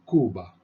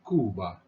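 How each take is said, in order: First: It is said with a Spanish pronunciation. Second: It is said with a Spanish pronunciation.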